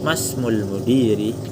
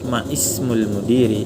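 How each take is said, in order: First: The 'i' is dropped, giving 'masmul'. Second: The 'i' of 'ismul' is pronounced separately. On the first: The words run together because of the connecting hamza. "jadi langsung disambung" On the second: This is the full underlying form. "dibaca juga nggak masalah"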